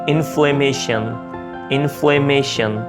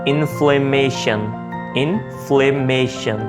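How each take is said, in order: No difference in how they are said.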